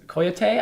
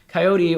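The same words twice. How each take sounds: First: The word is said with a Spanish pronunciation. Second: The word is said with an English pronunciation.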